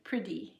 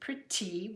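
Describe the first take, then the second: First: The middle of the word sounds like a d. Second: The middle of the word is a forced t. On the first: The speaker calls it right. "is what we say" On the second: The speaker calls it wrong. "it's overdone because we're forcing that T sound in it"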